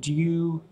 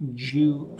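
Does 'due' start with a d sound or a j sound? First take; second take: d sound; j sound. First: The word starts with a clear d sound. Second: The word starts with a j-like sound. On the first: This is a pronunciation heard in the United States. "They might say due. Zinchenko, due, pronouncing more the D-U" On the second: This is the usual British pronunciation. "A D-U in UK English will be pronounced like a J"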